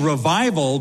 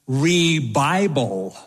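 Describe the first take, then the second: First: Said in the usual way. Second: "Re-Bible" slow, v turned to b, ri-BYE-bul; drawn out "Re-Bible" as an Indian speaker says revival; "Re-Bible" stretched, stressed on BYE; Indian accent pronunciation. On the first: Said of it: "he was saying revival, but the beautiful Indian accent came out". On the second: Retold or imitated. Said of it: "the beautiful Indian accent came out".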